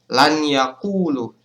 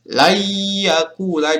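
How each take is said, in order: First: The n sound is pronounced separately before y. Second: The n sound merges nasally into the y. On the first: The speaker calls it wrong. "Cara membaca salahnya" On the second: The speaker calls it right. "nun ini dilebur masuk ke ya"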